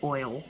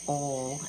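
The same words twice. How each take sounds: First: It is said in a standard American accent. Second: It is said in a Southern American accent. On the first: "instead of oil" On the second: "It's just about as bad as me saying oil"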